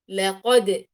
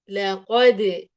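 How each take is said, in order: First: The final d bounce has no vowel colour. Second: The final d bounce leans toward an i vowel. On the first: The speaker calls it right. "وهي في الأصل لقد، لقد، لا أميلها إلى فتح ولا إلى كسر ولا إلى ضم" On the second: The speaker calls it wrong. "يعني أميلها إلى كسر"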